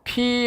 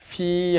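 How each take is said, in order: First: It starts with a breathy p using both lips. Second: It starts with an f-like sound using lip and teeth. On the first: "이것은 양순음이죠. 양순 음, 격음이에요" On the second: "순치 마찰음이에요. 입술과 이빨이 만나는 거예요"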